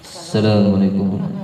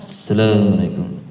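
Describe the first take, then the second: The two takes are said the same way.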